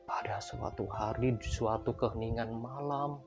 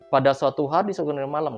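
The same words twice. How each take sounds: First: It is read slowly with a spooky, varied tune. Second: It is read in a flat, unvaried tone. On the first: The speaker calls it right. "kita baca pelan-pelan gitu ya" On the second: The speaker calls it wrong. "Jadi jangan datar"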